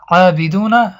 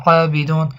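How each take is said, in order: First: عابدون read through with its final vowel, abiduna; عابدون with the ending vowel voiced; continuous reading form. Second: عابدون stopped on a silent final n, abidun; عابدون closed on a silent final n; pausal form. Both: Shown as a demonstration. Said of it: "اما وقتی که وقف کرده شود".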